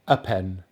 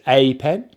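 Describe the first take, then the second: First: The article is reduced to a weak schwa. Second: The article has a full, unreduced vowel. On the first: "but normally we say a pen" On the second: "we can say it's a pen"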